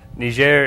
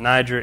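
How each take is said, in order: First: The name is said with a French pronunciation. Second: The name is said with an English pronunciation. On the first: "is the French pronunciation"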